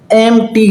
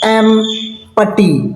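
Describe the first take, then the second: First: The p sound is left out completely. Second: A clear p sound is pronounced mid-word. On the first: The speaker calls it right. "इसका पी जो है ना वो silent होता है" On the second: The speaker calls it wrong. "कुछ लोग इसको एम पट्टी पढ़ते हैं"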